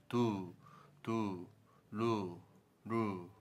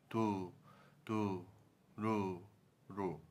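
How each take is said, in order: Both takes have the same delivery.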